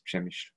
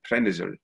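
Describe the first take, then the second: First: The name is pronounced with Polish sounds. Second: The name is pronounced with Ukrainian sounds. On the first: "in Polish it's Przemyśl" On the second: "In Ukrainian, it's known as"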